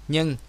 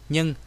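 Both takes have the same delivery.

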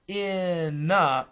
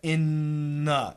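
First: The th sound is clearly pronounced after n. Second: A long n replaces the th sound. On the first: "Not in the" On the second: "You got to have a really long N"

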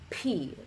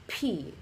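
First: The consonant is said with a strong puff of air. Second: The same.

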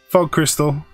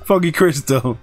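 First: It is said in a flat, unenthusiastic voice. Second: It is said in an excited, enthusiastic voice. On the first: The speaker calls it wrong. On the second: The speaker calls it right.

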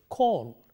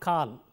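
First: The vowel is said with rounded lips. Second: The vowel is said with unrounded lips. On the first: The speaker calls it right. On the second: The speaker calls it wrong.

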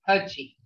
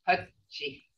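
First: The word is short and blunt. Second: The word is held a little longer. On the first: It means tail. "The tail is more blunt sound, short sounded" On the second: It means stream. "See how it's held a little longer?"

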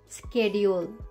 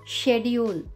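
First: It is said with an American pronunciation. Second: It is said with a British pronunciation. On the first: "Change in pronunciation" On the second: "Change in pronunciation"

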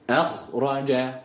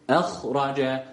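Both takes have the same delivery.

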